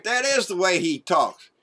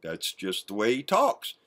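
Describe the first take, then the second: First: "is" leaned on firmly; stress on is. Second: Softer, lower mock excuse; mocking Junior. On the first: Real, not acted. Vlogger sarcastically agrees with Junior, pressing on "is". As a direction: agree hard by hitting "is". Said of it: "And Junior's right". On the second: Vlogger parrots Junior's excuse for his father, soft mock voice. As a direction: dismiss it like a sheepish son. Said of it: "That's what Junior said".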